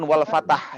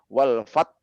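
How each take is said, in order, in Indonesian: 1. Konsonan terakhir dilepas dengan vokal tambahan. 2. Konsonan terakhir dipotong secara tiba-tiba. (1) "bukan wal fatah ya" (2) "tapi wal fat gitu"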